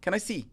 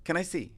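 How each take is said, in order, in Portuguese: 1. As palavras se juntam em um único som. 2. As palavras se juntam em um único som.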